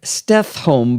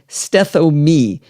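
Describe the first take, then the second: First: The name is said in two syllables. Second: The name is said in three syllables. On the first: The speaker calls it wrong. "call the product Stethome because of how it's spelled" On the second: The speaker calls it right. "but it's actually Steth-O-Me"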